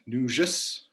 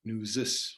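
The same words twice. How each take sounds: First: Northern Nujis, zh in the middle. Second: Nuzis said with a plain buzzing z, NOO-zis. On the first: Teaching the northern form Nujis to students, with a zh sound. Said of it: "rather than a Z H sound". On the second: Showing listeners the Minnesota form Nuzis, said with a z. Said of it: "with a Z rather than a Z H sound". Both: Shown as a demonstration.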